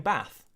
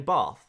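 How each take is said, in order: First: It is said in a northern English accent. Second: It is said in a Bath local accent. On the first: "north of like Birmingham, you would say Bath" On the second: "What do people in Bath say? Well, they say Bath"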